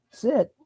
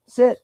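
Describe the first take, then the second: First: Sharp high sit command; firm command. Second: High sharp sit, louder; loud command. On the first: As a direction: snap it up high at the dog. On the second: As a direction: bark the command so the dog obeys. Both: Real, not acted.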